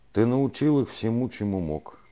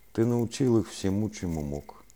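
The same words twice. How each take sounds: No difference in how they are said.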